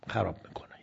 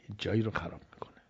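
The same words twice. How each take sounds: First: Said in the usual way. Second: Fast, hushed whispered repeat. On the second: Shown as a demonstration. Preacher whispers the warning to the congregation, fast and hushed. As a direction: drop to a quick secret whisper.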